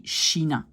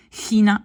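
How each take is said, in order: First: China opening on a soft sh sound; China with sh, no throat scrape; correct soft sh. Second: China with a scraped throaty ch at the start; China opening on a rasped kh; wrong throaty ch. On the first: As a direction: say China as SHEE-na. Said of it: "on dit China en néerlandais". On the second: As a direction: mispronounce China with a Dutch guttural ch. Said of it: "On ne dit pas China". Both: Shown as a demonstration.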